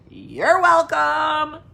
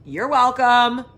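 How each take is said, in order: First: Hammed-up gracious. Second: Mock gracious. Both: Teasing viewers after showing feet.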